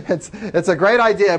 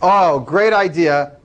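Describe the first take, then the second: First: Said in the usual way. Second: Dry, drawn-out mock praise; sarcastic. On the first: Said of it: "I'm really glad you came up with this idea". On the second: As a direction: say it slowly, clearly not meaning it. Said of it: "And I'm being sarcastic".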